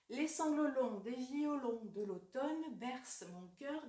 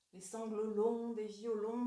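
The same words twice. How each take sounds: First: First slow reading of the verse; poem recitation. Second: Slow, drawn-out verse reading; lingering recitation. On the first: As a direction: read the line slowly and evenly. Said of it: "Je vous donne l'exemple bien connu de Verlaine". (première lecture lente du vers) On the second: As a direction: savor "longs", stretching it out nostalgically. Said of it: "renforce l'impression de nostalgie". (lecture lente qui étire « longs ») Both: Shown as a demonstration.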